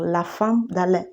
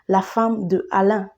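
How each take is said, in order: First: The vowel of de is dropped before Alain. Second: The vowel of de is kept before Alain. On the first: The speaker calls it right. "c'est ce qu'il faut dire" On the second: The speaker calls it wrong. "On ne dit pas"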